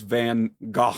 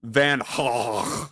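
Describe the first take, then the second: First: Van Gogh said as "van gah"; hard g in Gogh, open "ah" ending; assumed pronunciation. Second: Van Gogh said as "van khah"; throaty h opening Gogh, long open vowel; corrected throaty pronunciation. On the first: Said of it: "I thought it was Van Gogh". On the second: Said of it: "apparently it's more like". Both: Shown as a demonstration.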